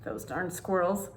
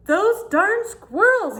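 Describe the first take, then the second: First: Said in the usual way. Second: Put-on very high, slow, loud old-man shout; grumpy old man yell. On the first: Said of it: "You see how tricky they are". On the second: Old man furious at the squirrels, high slow shout. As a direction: bellow it out, dragging each word. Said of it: "yelled Old Man Fuquire".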